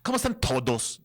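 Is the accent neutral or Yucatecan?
Yucatecan. It is said in a strong, clipped Yucatecan accent. The speaker calls it wrong. "En vez de decir"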